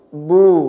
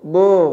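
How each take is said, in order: First: The vowel is a rounded, pure u sound. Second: The vowel is opened toward an o sound. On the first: The speaker calls it right. "Jadi u" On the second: The speaker calls it wrong. "Bukan o"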